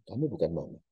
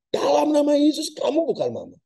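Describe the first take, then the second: First: Hushed, holding back, a calm refusal; quiet firm denial. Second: Loud commanding rebuke in Jesus' name; rebuking shout. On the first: The son quietly tells the ghost it isn't his mother, hushed. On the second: The pastor shouts at the ghost posing as his mother. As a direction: bark it out like casting out a spirit. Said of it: "Dia bentak". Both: Acted.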